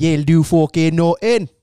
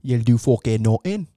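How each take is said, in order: First: Slower Irish brogue, drawn out; Conor McGregor. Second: Irish brogue, hard on the curse; doing a fighter's trash talk in an Irish accent; Conor McGregor. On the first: Repeating the Irish McGregor line slower for his pal. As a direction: lean into the Irish trash talk. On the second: Showing his pal his Conor McGregor Irish accent. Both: Retold or imitated. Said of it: "Conor McGregor imitation".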